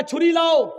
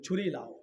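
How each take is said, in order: First: Firm order. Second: Quiet order. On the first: Umar repeats order, firmer. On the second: Umar quietly orders knife. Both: Retold or imitated.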